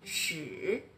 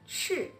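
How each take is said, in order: First: The pitch dips low then rises. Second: The pitch falls sharply from high. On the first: "Le troisième" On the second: "Le quatrième"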